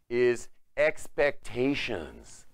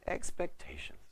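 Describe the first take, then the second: First: "expectations" drawn out very slowly and louder; emphatic key word. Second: "Expectations" said softly, half whispered; hushed repeat. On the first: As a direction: proclaim "expectations" syllable by syllable. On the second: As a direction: drop to a breath on "Expectations". Repeats the key word hushed. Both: Shown as a demonstration.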